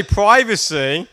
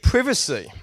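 First: PRIVACY with a long i, PRY-va-see; American "PRY-vacy". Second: PRIVACY with a short i, PRIV-a-see; British "PRIV-acy". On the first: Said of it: "You would say privacy". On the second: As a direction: open privacy like "give". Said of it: "I read privacy". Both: Shown as a demonstration.

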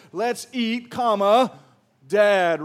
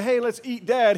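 First: "Let's eat" then a clear stop before "Dad", with "comma" and "Dad" louder; pause for the comma. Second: Said in the usual way. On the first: Shown as a demonstration. Preacher demos the correct punctuation, with a pause and a loud "Dad". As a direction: land on "comma" and hold a beat before "Dad". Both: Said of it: "here's what it should say".

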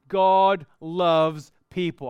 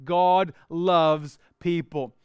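First: God loves people, slow and loud, GOD stressed; emphatic point. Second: "God loves people" again slow and loud, GOD stressed; repeated emphatic point. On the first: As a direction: land "God loves people" slowly, leaning on God. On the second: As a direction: hammer "God loves people" home slowly. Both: Shown as a demonstration. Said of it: "I'm gonna walk through".

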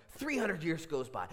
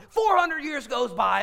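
First: Slightly raised, measured count of centuries; building suspense. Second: High, loud, drawn-out cry; climactic shout. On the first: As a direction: start the climb, still held back in volume. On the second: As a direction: belt out the passing centuries slowly. Climax of counting the centuries. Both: Real, not acted.

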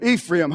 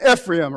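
First: Ephraim with a long EE at the start; EE-free-um pronunciation. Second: Ephraim with a short EH at the start; EH-free-um pronunciation. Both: Shown as a demonstration. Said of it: "however you want to say it".

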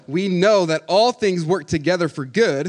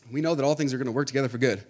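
First: Slow, loud verse with weight on all; emphatic quote. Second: Said in the usual way. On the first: Shown as a demonstration. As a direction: stretch out "We know that all things work together for good" and punch "all". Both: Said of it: "we pause right there".

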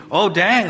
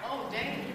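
First: Said in the usual way. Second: Breathy whispered oh dang, no voice at all. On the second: Acted. Pastor whispers it to the congregation, under his breath. Same words repeated, first breathed.

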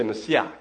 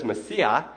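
First: "Messiah" as ma-see-ACH, throaty ending; Hebrew pronunciation. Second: Said in the usual way. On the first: Shown as a demonstration. Pastor shows how Israelis say it, "Messiah" with guttural final ch. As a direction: end "Messiah" with a catch in the throat. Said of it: "but they pronounce it". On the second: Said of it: "So it's an H".

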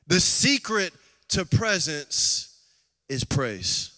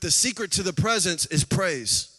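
First: Key words spaced out with pauses; slow right down and punch SECRET, pause before "is praise"; slow emphatic repeat. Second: Said in the usual way. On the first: Real, not acted. Preacher drives the key point home to the congregation, slow and emphatic.

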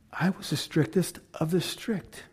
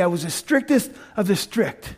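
First: Dropped to a much softer level; quiet. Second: Said in the usual way. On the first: Shown as a demonstration. Paul recalling his strictness to the crowd, hushed repeat. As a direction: say it again almost under the breath. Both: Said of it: "repeated softer".

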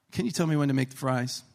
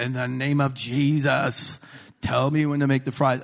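First: Said in the usual way. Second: Mock fervent prayer. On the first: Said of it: "I said it in my heart". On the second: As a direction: intone it like a showy revival prayer. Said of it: "speak in tongues and say".

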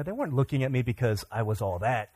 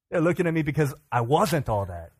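First: Said in the usual way. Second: "wasn't" lifted above the rest; stress on WASN'T. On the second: Retold or imitated. Comic correcting his own belief, stress on "wasn't". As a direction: punch "wasn't", then let the pitch fall.

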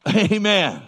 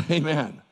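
First: Loud, higher call for a response; louder prompting. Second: Said in the usual way. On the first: Real, not acted. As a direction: call it out to rouse the congregation. Repeats louder to prompt congregation.

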